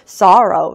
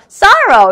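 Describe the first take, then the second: First: It is said in a lower, subdued tone. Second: It is said in a higher, brighter tone. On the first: The speaker calls it right. "좀 이렇게 정적으로 sorrow 이렇게 한 톤 낮춰서" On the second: The speaker calls it wrong. "sorrow 이렇게 읽을 수는 없잖아요"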